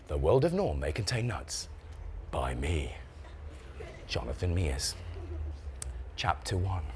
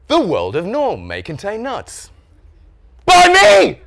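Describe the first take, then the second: First: Low, soft, solemn book opening; hushed title reading. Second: Slow swooping title, then shouted high byline; triumphant title announcement. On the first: Acted. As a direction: begin the book with quiet gravity. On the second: Shown as a demonstration. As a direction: crow proudly over your own book. Proudly announces his own book.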